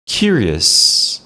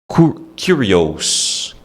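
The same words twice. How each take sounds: First: The last syllable has a weak schwa vowel. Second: The last syllable has a full, clear vowel. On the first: The speaker calls it right. "Esse O ou S no final é um som de a" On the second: The speaker calls it wrong. "Muita gente fala curious"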